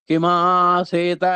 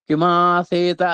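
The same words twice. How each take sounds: No difference in how they are said.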